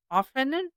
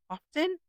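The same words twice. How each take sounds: First: "often," with the T silent, like "offen". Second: "often," with the T sounded, like "off-ten"; pronounced T. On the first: Speaker tries out the word two ways, silent T. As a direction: say "often," as "OFF-en", no T sound. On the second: Speaker repeats the word another way, sounded T. Tries two pronunciations of often. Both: Shown as a demonstration.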